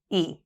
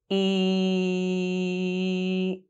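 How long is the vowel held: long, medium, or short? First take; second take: short; long. First: The vowel is said at normal short length. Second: The vowel is held for about three seconds. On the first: "Pronounce the sound at standard speed" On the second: "Hold the sound for three seconds"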